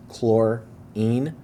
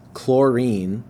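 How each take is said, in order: First: Chlorine with its syllables split, chlor stressed; syllable emphasis. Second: Said in the usual way. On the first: Shown as a demonstration. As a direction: lean on chlor in chlorine, then rise. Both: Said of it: "you hear the emphasis for the syllables".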